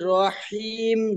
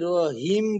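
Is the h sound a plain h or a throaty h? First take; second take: throaty; plain. First: The h is a deep throaty sound. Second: The h is a plain light breath. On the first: The speaker calls it right. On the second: The speaker calls it wrong.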